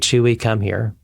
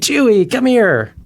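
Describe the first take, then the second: First: It is said flatly, without feeling. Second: It is said warmly and excitedly.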